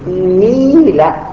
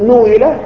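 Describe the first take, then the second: First: It starts with an i vowel throughout. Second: It starts with u and then moves to i. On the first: The speaker calls it right. "الصحيح الآن يقول نيلة" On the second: The speaker calls it wrong. "بدل أن يقولوا نويلة"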